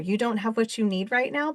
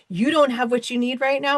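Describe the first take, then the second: First: It sounds curious and caring. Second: It sounds resentful and dismissive.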